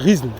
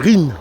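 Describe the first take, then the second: First: The s is sounded, read as spelled. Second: The s is silent, just a nasal vowel. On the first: The speaker calls it wrong. "ça s'écrit Rizn, mais c'est pas Rizn" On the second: The speaker calls it right. "c'est Rin"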